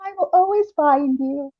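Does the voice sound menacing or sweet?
sweet. It is said in a sweet, affectionate tone. The writer is expressing love. "little hearts over the eyes and like little girly, really curly type cursive"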